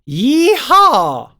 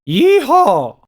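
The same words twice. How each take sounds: First: The soft palate is raised, giving an open sound. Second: The soft palate is lowered, giving a nasal sound. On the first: The speaker calls it right. "It is more efficient to have my soft palate lifted for that" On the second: The speaker calls it wrong. "If I dome it"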